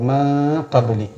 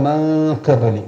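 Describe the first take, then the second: Both takes have the same delivery.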